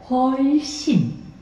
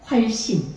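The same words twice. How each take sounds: First: The vowel is stretched out long. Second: The word is said short and plain. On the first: "이렇게도 할 수 있고요" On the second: "이렇게도 할 수 있지만"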